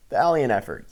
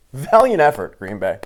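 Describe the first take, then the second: First: Said in the usual way. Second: Loud, mock-praising call; mocking shout. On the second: Real, not acted. Taunting Green Bay fans, loud mocking cheer. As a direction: bellow fake congratulations at the losers.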